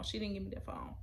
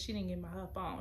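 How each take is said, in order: First: Breathy hushed repeat; whisper. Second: Said in the usual way. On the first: Shown as a demonstration. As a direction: drop to a whisper for the phone. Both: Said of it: "repeated as a whisper".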